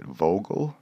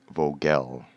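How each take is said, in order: First: Vogel as VOH-gul, rising like a question; first guess at pronunciation. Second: Vogel as voh-GELL, drawn out slowly; alternative pronunciation. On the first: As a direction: try Vogel with a quick, unstressed second syllable. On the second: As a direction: try Vogel with a full "gell" second syllable. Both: Shown as a demonstration. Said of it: "how do you pronounce your name".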